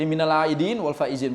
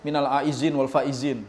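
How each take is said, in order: First: The word aidin is said with a d sound. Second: The word aidin is said with a z sound. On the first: The speaker calls it right. "minal aidin pakai dal" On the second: The speaker calls it wrong. "bukan minal aizin wal faizin. Salah itu kalimatnya"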